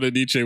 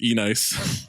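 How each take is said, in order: First: The name is said the usual way, as one word. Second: The name is said as 'E' plus 'nice'. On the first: The speaker calls it right. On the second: The speaker calls it wrong.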